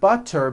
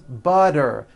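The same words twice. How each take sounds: First: The middle consonant is a crisp T. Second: The middle consonant is a soft voiced D.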